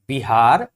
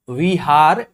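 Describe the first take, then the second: First: The word begins with a b sound. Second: The word begins with a v sound. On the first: "विहार को लोग बिहार बोलते हैं आसानी से बोलने के लिए" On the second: "अशिक्षित लोग ब व में ... भेद नहीं करते"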